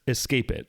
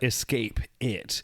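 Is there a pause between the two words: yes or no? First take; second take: no; yes. First: The two words run together as one word. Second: The two words are separated by a break. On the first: It sounds like an ordinary phrase, not a title. "One big word" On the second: It is the title of a movie. "it's never like escape it"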